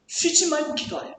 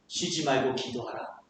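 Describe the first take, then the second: First: Higher-pitched, as an impossible demand; burdensome command. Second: Low, soft, gentle invitation; with God's heart. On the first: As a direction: relay it like an overwhelming order. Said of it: "어떻게 이렇게 쉬지 말고 기도할 수 있을까요?". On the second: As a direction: say it tenderly as God would. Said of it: "하나님의 마음으로 보세요". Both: Acted.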